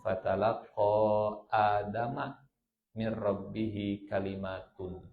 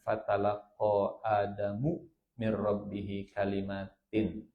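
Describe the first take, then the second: First: Adam ends in a, kalimat ends in un. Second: Adam ends in u, kalimat ends in in. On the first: The words are the subject and Adam the object. "Adamnya pakai fathah, kalimatnya pakai domaten" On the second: Adam is the subject who receives the words.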